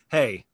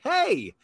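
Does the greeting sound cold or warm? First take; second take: cold; warm. First: The greeting sounds cold and unfriendly. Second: The greeting sounds warm and friendly.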